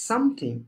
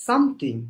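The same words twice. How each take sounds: No difference in how they are said.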